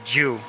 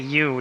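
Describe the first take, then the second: First: It begins with a hard 'j' sound. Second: It begins with a plain 'y' sound.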